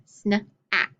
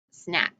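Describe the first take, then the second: First: SNA-ACK split into onset and rime; segmented word. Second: Said in the usual way. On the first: Shown as a demonstration. Teacher sounding out a word for pupils, SNA-ACK in parts. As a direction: break SNA-ACK into sn, then ack. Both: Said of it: "It'd be snack then".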